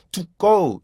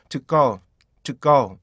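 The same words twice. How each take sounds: First: "to go" with a full "too" and long "go"; overfull TO GO. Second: "to go" with "to" reduced to a stopped "teuk"; short-stopped TO GO. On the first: Teacher shows what not to do, full "to go". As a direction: give both words of "to go" full vowels. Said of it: "이렇게 하면 안 되고". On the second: Teacher models the connected form, short "to" in "to go". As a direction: cut "to" short before "go". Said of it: "이런 식으로". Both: Shown as a demonstration.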